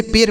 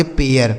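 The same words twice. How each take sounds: First: पेर said as a short per with a rising question; mock the wrong reading पेर; teacher's wrong version पेर, questioning; wrong pronunciation. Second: पेयर said as pe-yar with an eh-ya glide; teacher's correct version पेयर, falling; correct pronunciation. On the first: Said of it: "बिल्कुल नहीं, यहाँ गलत उच्चारण हो जाएगा". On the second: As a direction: give पेयर its full pe-yar sound. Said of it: "तो यह हो गया आपका पेयर". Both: Shown as a demonstration.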